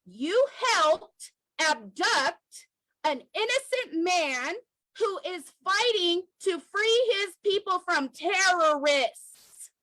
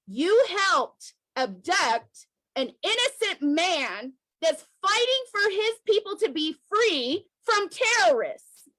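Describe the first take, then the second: First: Repeated word by word, slow and pointed; slower repeated accusation. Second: Slow, deliberate blow on each word; slow accusation. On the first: Activist repeating the accusation slowly to the Kenyan government. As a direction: say it again so it sticks. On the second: Activist accusing the Kenyan government, slow and deliberate. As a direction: lay the charge down slowly. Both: Real, not acted. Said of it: "Let me say that again".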